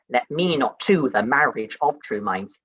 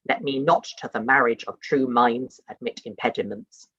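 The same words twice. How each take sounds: First: Slow, stress on to as the iambs demand; strict iambic reading. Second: Natural phrasing, stress falling on not; natural reading. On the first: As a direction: read it in strict da dum meter, leaning on to. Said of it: "you might say". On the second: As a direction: say it as you'd really read it, leaning on not. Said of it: "probably you'd read that as". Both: Shown as a demonstration.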